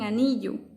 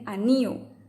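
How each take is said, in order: First: The 'll' sound is clearly pronounced. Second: The 'll' sound is dropped between vowels.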